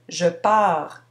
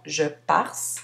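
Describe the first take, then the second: First: The word ends on the r, with no final consonant. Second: The word ends with an added final s sound. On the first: The speaker calls it right. "on ne prononce pas la, con la consonne finale" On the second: The speaker calls it wrong. "et non"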